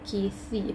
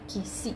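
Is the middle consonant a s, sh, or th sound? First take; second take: th; s. First: The middle consonant is a soft th sound. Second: The middle consonant is a plain s sound. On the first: The speaker calls it right. "bite your tongue" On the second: The speaker calls it wrong. "Not kisi, that's si"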